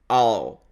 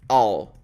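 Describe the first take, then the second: First: The words merge into one short syllable. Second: The same.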